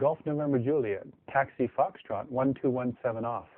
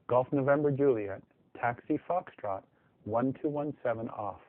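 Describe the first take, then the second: First: The phrase is spoken quickly. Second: The phrase is spoken more slowly. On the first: "they do say it fast" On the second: "say that a little slower"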